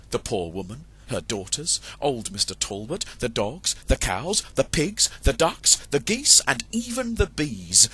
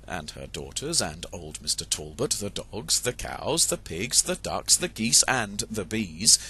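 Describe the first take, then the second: First: Growing to a rousing end; building excitement. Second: Said in the usual way. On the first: A narrator's reading. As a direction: pile up the chase, item by item. List builds to noisy chase.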